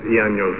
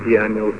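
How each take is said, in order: Both takes have the same delivery.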